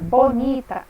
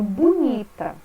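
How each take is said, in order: First: The first vowel sounds like 'o'. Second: The first vowel sounds like 'u'. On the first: "ao invés de falar bonita" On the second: "eu falo bonita"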